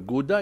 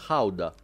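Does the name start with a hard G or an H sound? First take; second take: hard G; H. First: It starts with a hard g sound. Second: It starts with an h-like sound. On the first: This is how it is known locally. The speaker calls it wrong. "εμείς το ξέρουμε Γκούντα" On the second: This is how it really is said. The speaker calls it right. "είναι Χάουντα"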